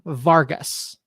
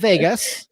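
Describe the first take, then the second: First: The name is said as Vargas, with an r. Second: The name is said as Vegas, without an r. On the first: The speaker calls it right. "Marlon Vargas" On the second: The speaker calls it wrong. "not Vegas"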